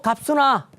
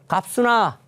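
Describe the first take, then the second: First: The name is called out much louder. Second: The name is called at normal loudness.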